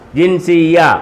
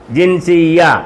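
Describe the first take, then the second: The two takes are said the same way.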